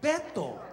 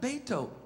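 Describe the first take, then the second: First: The name is pronounced with Spanish sounds. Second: The name is pronounced with English sounds. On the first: The speaker calls it right. "that's what they call a person named Robert in Spanish" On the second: The speaker calls it wrong. "It's not Beto"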